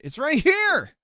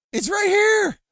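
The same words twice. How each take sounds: First: Higher and louder, pressing it; frustrated high insist. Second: Much higher, shouting it; frustrated shout. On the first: Streamer argues with the game that can't find it, loud insistence. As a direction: insist the thing is right there. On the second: Streamer yells at the game that can't find the node, full shout. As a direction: yell it at the screen. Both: Real, not acted. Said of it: "it's saying it can't find it".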